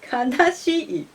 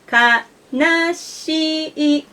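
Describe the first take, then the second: First: The pitch has an accent with a drop. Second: The pitch stays flat with no drop. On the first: The speaker calls it wrong. "many people read kanashi as kanashi" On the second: The speaker calls it right. "This is flat, so we read it as kanashi"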